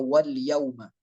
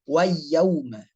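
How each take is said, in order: First: The l is clearly pronounced before the y. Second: The l merges into a doubled y sound. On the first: The speaker calls it right. "Contoh di ayat dua" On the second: The speaker calls it wrong.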